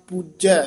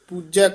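The two takes are said the same way.

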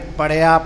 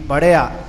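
First: The word is said light, without a heavy tone. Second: The word is said with a heavy tone. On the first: The speaker calls it wrong. "ਇੱਥੇ ਪੜਿਆ ਪਾਠ ਨਹੀਂ ਕਰਨਾ" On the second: The speaker calls it right. "ਥੋੜ੍ਹਾ ਭਾਰਾ ਕਰਕੇ"

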